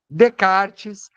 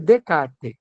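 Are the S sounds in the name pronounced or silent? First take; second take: pronounced; silent. First: The S sounds in the name are pronounced. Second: The S sounds in the name are silent. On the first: The speaker calls it wrong. "tem gente que fala Descartes" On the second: The speaker calls it right. "o certo é Descartes"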